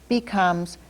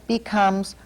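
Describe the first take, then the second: No difference in how they are said.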